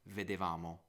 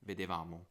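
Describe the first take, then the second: No difference in how they are said.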